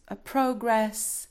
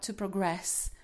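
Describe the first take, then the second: First: Progress stressed on first syllable, PRO-gress, said slowly; noun stress. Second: Progress stressed on second syllable, pro-GRESS; verb stress. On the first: Teacher giving students the noun progress, stress on PRO. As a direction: lean on PRO in progress and let gress fall away. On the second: Teacher contrasting the verb progress with the noun, stress on GRESS. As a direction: push the weight onto GRESS in progress. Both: Shown as a demonstration. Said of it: "Stress is on the second syllable".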